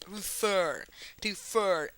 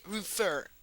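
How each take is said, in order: First: "refer" stressed on the second syllable, re-FER; stress on last syllable. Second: "refer" stressed on the first syllable, REE-fer; wrong stress. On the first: Teacher correcting the pronunciation of refer, final syllable stressed. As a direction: lean into the end of "refer". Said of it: "no, se dice refer". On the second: Teacher showing how refer is not said, stress on first syllable. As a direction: put the weight on the start of "refer". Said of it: "es que no se dice refer". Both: Shown as a demonstration.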